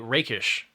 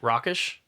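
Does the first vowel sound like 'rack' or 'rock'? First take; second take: rack; rock. First: The first vowel sounds like 'rack'. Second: The first vowel sounds like 'rock'. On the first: The speaker calls it right. "Rakish instead of ra- Rockish" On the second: The speaker calls it wrong. "instead of ra- Rockish"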